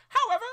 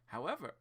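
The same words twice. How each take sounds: First: It is said in a put-on character voice. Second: It is said in his normal voice.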